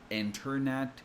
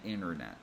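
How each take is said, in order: First: The T after the N is clearly pronounced. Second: The T after the N is dropped. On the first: "instead of saying internet" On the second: "we usually say internet"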